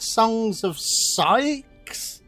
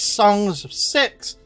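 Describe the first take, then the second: First: The last word sounds like 'sykes' with a long i. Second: The last word sounds like 'six' with a short i. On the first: "Some people pronounce it Songs of Sykes" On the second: "It says Songs of Six"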